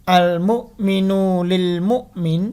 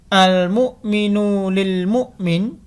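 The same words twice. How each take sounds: The two takes are said the same way.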